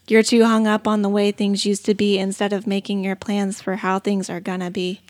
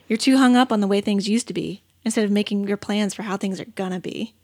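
First: It is said in a flat monotone. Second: It is said with lively emotion.

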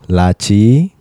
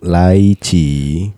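First: The first syllable sounds like 'la'. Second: The first syllable sounds like 'lie'. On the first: The speaker calls it right. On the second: The speaker calls it wrong.

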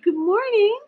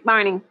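First: It is said in a sweet baby-talk voice. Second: It is said in a plain, ordinary voice.

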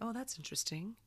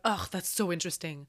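First: It sounds open and curious. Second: It sounds disgusted and dismissive.

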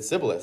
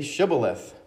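First: The word begins with a plain s sound. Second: The word begins with an sh sound. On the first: The speaker calls it wrong. "So the SH sound, I guess, couldn't say. He said Sibboleth, for he could not pronounce it right" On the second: The speaker calls it right. "Then say Shibboleth"

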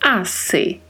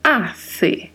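First: The middle consonant is a plain s sound. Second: The middle consonant is a th sound. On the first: "Essa pronúncia é com o som de S" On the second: "É a pronúncia gerada com a língua entre os dentes"

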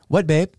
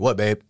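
First: The voice is at its usual, higher pitch. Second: The voice is pitched a little deeper. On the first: The speaker calls it wrong. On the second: The speaker calls it right.

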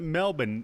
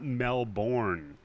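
First: It is said the way Australians say it. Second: It is said in a non-Australian way. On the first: The speaker calls it right. "They pronounce it Melbourne" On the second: The speaker calls it wrong. "not Melbourne"

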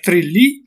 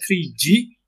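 First: The middle consonant is a plain L sound. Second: The middle consonant is a Y-like sound. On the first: "Ik zou zeggen Trili" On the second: "aangezien dubbel L en J is, zou ik zeggen Trigi"

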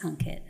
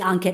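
First: The name is said in a soft, calm tone. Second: The name is said in a harsh, aggressive tone. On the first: "or I could speak like this" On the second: "I can speak super aggressively"

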